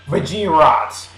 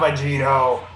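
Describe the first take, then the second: First: The name ends with a 'rot' sound. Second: The name ends with a 'toe' sound. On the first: The speaker calls it right. "the way Akira Toriyama wants me to say it" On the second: The speaker calls it wrong. "I'm saying it wrong"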